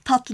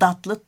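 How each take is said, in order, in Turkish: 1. Kelime sert (sessiz) t sesiyle başlar. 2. Kelime yumuşak (sesli) d sesiyle başlar. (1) "Genel olarak ağızlarda tatlı yerine datlı" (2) "Genel olarak ağızlarda tatlı yerine datlı"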